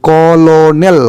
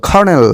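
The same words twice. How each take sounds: First: "কলোনেল" sounded out as written, ko-lo-nel; spelling pronunciation. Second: "কর্নেল" said as kor-nel, two syllables; real pronunciation. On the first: Teacher showing students the written form, ko-lo-nel, spelt out. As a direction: read "কলোনেল" syllable by syllable as it is spelt. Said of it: "ইংরেজিটাকে উচ্চারণ করার চেষ্টা করি". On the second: Teacher giving students the spoken form, kor-nel. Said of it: "কলোনেল মানে কর্নেল". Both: Shown as a demonstration.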